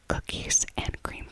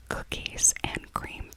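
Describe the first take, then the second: No difference in how they are said.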